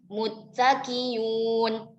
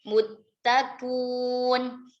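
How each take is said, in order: First: The hamzah is replaced by a y sound. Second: The hamzah is dropped and the vowel before becomes u. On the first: "Biibdalil hamzah ya'an" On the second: "Bihadfil hamzati ma'adhammi ma qablaha"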